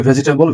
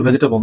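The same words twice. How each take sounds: First: ভেজিটেবল in four syllables, "ve-ji-te-bol"; mistaken pronunciation. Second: ভেজিটেবল squeezed to "VEJ-te-bol"; correct pronunciation. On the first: Teacher quoting what many say, ভেজিটেবল with a full ji. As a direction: sound the middle i in ভেজিটেবল. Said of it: "আমরা অনেকে বলি". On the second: Teacher correcting learners, ভেজিটেবল as vej-te-bol. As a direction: drop the middle i of ভেজিটেবল. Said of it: "ভেজিটেবল না". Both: Shown as a demonstration.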